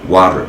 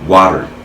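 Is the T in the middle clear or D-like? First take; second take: D-like; D-like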